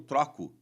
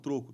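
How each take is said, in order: First: The first vowel is open. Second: The first vowel is closed. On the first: It is the verb meaning I exchange. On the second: It is the noun meaning change money.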